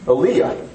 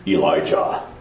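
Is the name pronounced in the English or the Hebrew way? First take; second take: Hebrew; English. First: The name is said with the Hebrew pronunciation. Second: The name is said with the common English pronunciation. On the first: The speaker calls it right. "the Hebrew is Aliyah" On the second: The speaker calls it wrong. "That's how we pronounce it. It's wrong"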